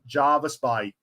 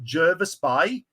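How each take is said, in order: First: The first vowel sounds like the vowel in 'jar'. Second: The first vowel sounds like the vowel in 'jerk'. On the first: This is how people from elsewhere say it. "Everyone else pronounces it Jarvis Bay" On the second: This is how local people say it. "The locals pronounce it Jervis Bay"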